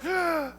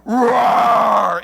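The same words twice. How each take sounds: First: High, soft, feeble mock roar; tiny cub roar. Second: Big, loud lion roar; father lion's roar. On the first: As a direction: squeak out a little cub's attempt at roaring. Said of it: "I'm gonna roar, I'm gonna scare the enemy". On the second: Acted. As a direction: let out a mighty imitated roar, loud and full. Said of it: "there's this other roar that's like".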